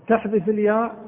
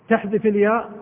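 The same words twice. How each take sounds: Both takes have the same delivery.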